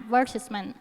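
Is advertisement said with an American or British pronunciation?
British. It is said with a British pronunciation. "อังกฤษจะอ่าน"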